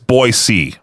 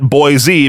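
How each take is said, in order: First: The city name is said the local way. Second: The city name is said the outsider way. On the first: The speaker is from the area. The speaker calls it right. "the biggest one is that it's Boise" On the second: The speaker is not from the area. The speaker calls it wrong. "not Boise, because then you get hit with that dumb thing of, you're not from around here"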